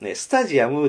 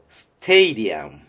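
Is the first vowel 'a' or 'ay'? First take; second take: a; ay. First: It is said like 'sta-ji-a-mu' with a plain 'a'. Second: It is said like 'stay-dee-um' with an 'ay'. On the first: The speaker calls it wrong. "スタジアムでは発音通じません" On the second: The speaker calls it right. "なんというかっていうと"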